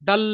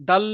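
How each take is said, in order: No difference in how they are said.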